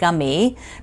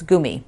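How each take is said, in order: First: The word is said with an American pronunciation. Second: The word is said with a German pronunciation. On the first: The speaker calls it wrong. "It's not gummy" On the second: The speaker calls it right. "you speak it like a German, and it's gummy"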